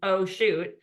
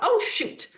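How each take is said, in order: First: It is said flatly, like a computer voice. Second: It is said with strong, emotional inflection.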